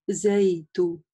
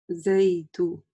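Both takes have the same delivery.

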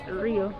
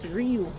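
First: The name ends in an 'oh' vowel. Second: The name ends in an 'oo' vowel. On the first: The speaker calls it wrong. "It's not Rio" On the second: The speaker calls it right. "It's Riu, right?"

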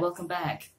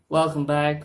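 First: It is said with lively, energetic pitch. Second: It is said flat, on one pitch. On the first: "hyperactive 420 YouTuber friendly, family friendly, and aggressive and energetic" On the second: "I should speak more in a monotone voice like this"

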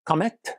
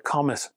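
First: The name is said with French pronunciation. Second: The name is said with English pronunciation. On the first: The speaker calls it right. "or rather being French" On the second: The speaker calls it wrong. "because I'm an ignorant Englishman, I'm going to call them the Comete"

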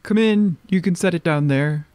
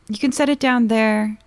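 First: It is said in a put-on character voice. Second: It is said in the speaker's normal voice.

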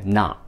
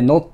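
First: The vowel sounds like 'ah' with stopped t. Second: The vowel sounds like 'oh' as in spelling. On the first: The speaker calls it right. "なの音ですね。そして最後t で止める" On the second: The speaker calls it wrong. "not じゃなくて"

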